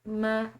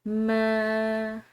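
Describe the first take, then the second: First: The vowel is short. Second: The vowel is held long. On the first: The speaker calls it wrong. "इस तरह इसको नहीं पढ़ना" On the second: The speaker calls it right. "अलिफ मद्दा के साथ मिलाते हुए लंबा अदा करना है एक अलिफ के बराबर"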